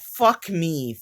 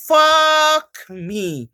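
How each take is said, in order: First: Said in the usual way. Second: Higher, louder exasperated fuck me; exasperated curse. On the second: Real, not acted. Embarrassed vlogger cursing her own blunder, exasperated. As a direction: curse yourself out loud for the blunder.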